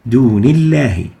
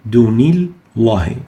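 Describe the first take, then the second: First: The L sound is light and thin. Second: The L sound is heavy and velarized. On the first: The speaker calls it right. "so it is attenuated" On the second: The speaker calls it wrong. "We don't say dunillahi. It's wrong"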